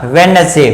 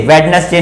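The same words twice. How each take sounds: First: वेडनेसडे said as "wen-es-day"; corrected वेडनेसडे, no d before n; silent D. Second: वेडनेसडे with the D sounded; wrong pronunciation. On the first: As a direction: drop the first d in वेडनेसडे. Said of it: "उच्चारण नहीं होगा". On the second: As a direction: say वेडनेसडे as "wed-nes-day". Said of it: "वेडनेसडे नहीं". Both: Shown as a demonstration.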